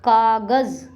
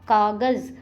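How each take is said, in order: The two takes are said the same way.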